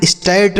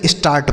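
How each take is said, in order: First: First स्टार्ट said with an ai vowel, like "stairt"; wrong pronunciation. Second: स्टार्ट with a long open aa vowel; correct pronunciation. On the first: Teacher warns pupils how not to read it, mispronounced. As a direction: say स्टार्ट with ai in place of aa. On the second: Teacher shows pupils the right reading, correctly pronounced. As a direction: say स्टार्ट with aa, not ai. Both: Shown as a demonstration. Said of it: "नहीं स्टार्ट पढ़ेंगे".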